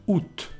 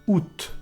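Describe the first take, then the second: No difference in how they are said.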